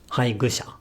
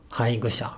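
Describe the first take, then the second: The two takes are said the same way.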